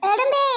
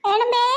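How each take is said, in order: First: Higher, rising, pleading call. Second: A loud call of her name. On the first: Child calls her mother's name again, higher and rising. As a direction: call her name up high, almost a squeal. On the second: Child calling her mother's name loudly. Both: Real, not acted.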